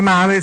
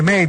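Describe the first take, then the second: First: The word is read letter by letter, as spelled. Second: The word sounds like the English word mail. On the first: "Si scrive male" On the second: "si dice mail"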